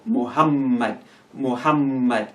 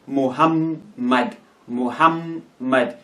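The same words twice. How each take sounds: First: "Muhammad" slowly, joined up with a held double M; slow, connected "Muhammad", M held double; doubled M, joined. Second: "Muhammad" slowly broken into Muham, then mad; M's separated. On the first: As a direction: hum through the middle M of "Muhammad" without a break. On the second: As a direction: pause between the two M's of "Muhammad". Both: Shown as a demonstration. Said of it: "pronounce it as if it is separate".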